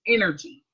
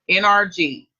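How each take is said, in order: First: The letters are run together fast. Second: The letters are said slowly and separately.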